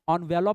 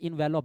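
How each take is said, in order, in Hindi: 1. यह शब्द 'on' की आवाज़ से शुरू होता है। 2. यह शब्द 'en' की आवाज़ से शुरू होता है। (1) "ऑनवेलप भी बोला जाता है" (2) "या फिर इन्वेलप भी आप बोल सकते हो"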